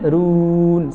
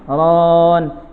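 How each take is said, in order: First: The lips are rounded, so the vowel sounds like 'u'. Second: The lips stay unrounded, so the vowel sounds like 'o'. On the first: The speaker calls it right. "Kalau manyun" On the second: The speaker calls it wrong. "nggak manyun"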